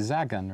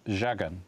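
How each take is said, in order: First: It is said with plain English sounds. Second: It is said with Polish sounds. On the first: This is how someone reading it without the accent would guess. The speaker calls it wrong. "They're going to look at that and go, well, it must be Zagan" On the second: This follows the accent mark over the letter. The speaker calls it right. "it has an accent over it, so it's Zagan"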